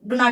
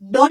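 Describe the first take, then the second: First: The two words are said separately and in full. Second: The two words are contracted into one syllable. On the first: "లేదా డు నాట్ డు నాట్ అని చెప్పొచ్చు" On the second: "డోంట్ అని చెప్పొచ్చు"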